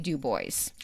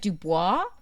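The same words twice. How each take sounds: First: Every letter is sounded, ending like 'boys'. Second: The final letters are silent, ending like 'bwah'. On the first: This is how locals say the name. The speaker calls it right. "but it's actually DuBois" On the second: This is how an outsider would read the name. The speaker calls it wrong. "I know it looks like Dubois, and I know that's how you want to pronounce it"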